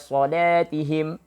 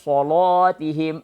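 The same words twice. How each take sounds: First: The L sound is light and thin. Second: The L sound is heavy and thick.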